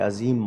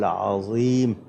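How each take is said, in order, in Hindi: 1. 'z' की आवाज़ सादी और हल्की 'z' है। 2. 'z' की आवाज़ भारी और तफ़ख़ीमी है। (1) "ज़े से पढ़ेंगे" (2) "ज़ोए की जगह से"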